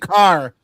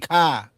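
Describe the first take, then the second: First: The word ends with a pronounced r. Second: The r is dropped, Boston style.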